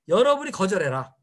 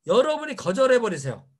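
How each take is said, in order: First: 여러분이 hit hard, 거절해라 cut short and lower; blunt command. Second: 여러분이 punched first, then 거절해버리세요 falling; stress on 여러분이. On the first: Speaker restating the point as a blunt order. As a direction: bark it as a plain order. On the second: Speaker urging the audience to do the refusing, stressing 여러분이. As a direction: lean hard on 여러분이. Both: Shown as a demonstration.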